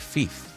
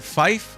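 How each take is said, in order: First: The vowel sounds like the letter e. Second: The vowel sounds like the word eye. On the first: "F E E F E kind of pronunciation" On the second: "Like F Y F E kind of pronunciation"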